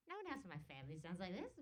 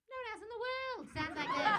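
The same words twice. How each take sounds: First: Said in the usual way. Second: High, loud comic exclamation; exasperated outburst. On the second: Retold or imitated. Comic answering a question about family, exasperated outburst. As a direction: shoot up into a mock-indignant yell. Second take, escalated exclamation.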